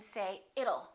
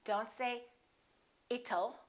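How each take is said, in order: First: The middle consonant is a fast D. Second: The middle consonant is a clear T. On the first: The speaker calls it right. "change that T into a fast D" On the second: The speaker calls it wrong.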